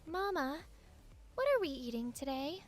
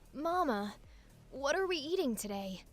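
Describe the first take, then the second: First: The voice sounds like a little girl. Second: The voice imitates Ash Ketchum.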